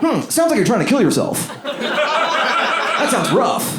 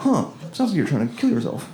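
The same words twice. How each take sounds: First: High, drawn-out chatbot voice. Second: A hint of an AI assistant; chatbot voice. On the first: Retold or imitated. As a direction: play the sympathetic AI assistant. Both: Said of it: "I like how the robot says that".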